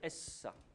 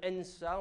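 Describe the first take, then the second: First: The n is absorbed into a doubled s. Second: An n sound comes before the s. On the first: The root's nun is assimilated to the next consonant. "le nun a été assimilé" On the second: The root's nun is kept unassimilated. "normalement il faut dire ensa"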